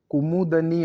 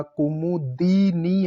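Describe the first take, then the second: First: कुमुदनी with "da" before nee; wrong pronunciation. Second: Slow कुमुदिनी, "di" drawn out; correct pronunciation. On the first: Teacher showing the error, कुमुदनी with da. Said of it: "ऐसे नहीं लिखा जाएगा". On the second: Teacher spelling it out, कुमुदिनी slowly with di. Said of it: "दी छोटा आएगा". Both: Shown as a demonstration.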